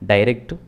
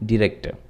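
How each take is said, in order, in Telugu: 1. మొదటి అక్షరం 'die' లా ధ్వనిస్తుంది. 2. మొదటి అక్షరం 'dih' లా ధ్వనిస్తుంది. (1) "దీన్ని చాలామంది డైరెక్ట్ అని ప్రొనౌన్స్ చేస్తూ ఉంటారు" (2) "యాక్చువల్ ప్రొనౌన్సియేషన్ వచ్చేసి డిరెక్ట్"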